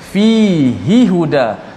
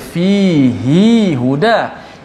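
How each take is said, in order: First: The vowel after the h is kept short. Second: The vowel after the h is drawn out long. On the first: The speaker calls it right. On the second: The speaker calls it wrong.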